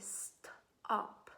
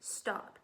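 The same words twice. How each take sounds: First: The word is said slowly and stretched out. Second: The word is said at normal speed. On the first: "I have to say it slowly" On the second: "I first have to say the word stop"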